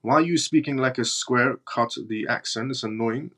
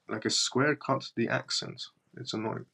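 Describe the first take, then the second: First: Said in the usual way. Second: Much softer, under the breath; muttered re-read. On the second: Real, not acted. Streamer re-reads the odd comment to himself, muttered. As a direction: mutter it back to yourself, puzzled.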